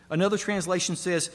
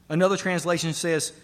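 No difference in how they are said.

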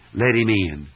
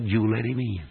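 First: "Let" hit hard and falling, the rest light; stress on let. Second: "you" pressed hardest, then falling off; stress on you. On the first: Preacher demanding the sinner act, stress on "Let". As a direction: punch "Let" in "Let him in". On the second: Preacher urging the sinner, weight on "you". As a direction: lean on "you" in "you let him in". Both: Shown as a demonstration. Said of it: "Hear me as I make the emphasis".

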